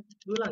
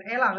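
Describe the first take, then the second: First: "Elang" starting on a central "eu" sound; correct vowel in elang. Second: "elang" with a full "é" at the start; wrong vowel in elang. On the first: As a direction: say "Elang" as "eu-lang", not "é-lang". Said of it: "Elang kita baca kan?". ("Elang" dengan e pepet di awal) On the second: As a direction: say "elang" as "é-lang". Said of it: "bukan elang kan?". ("elang" dengan é taling di awal) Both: Shown as a demonstration.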